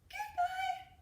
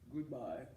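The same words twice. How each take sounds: First: It is said in a very high voice. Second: It is said in a very low voice.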